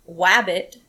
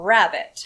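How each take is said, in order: First: The word begins with a W sound. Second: The word begins with an R sound. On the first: The speaker calls it wrong. "some kids have misplaced" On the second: The speaker calls it right. "for rabbit"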